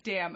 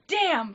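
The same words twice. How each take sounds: First: Said in the usual way. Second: High, loud shout from another room; imitated child calling out. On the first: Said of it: "my grandpa said". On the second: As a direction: call it out like a kid echoing Grandpa. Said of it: "from the other room".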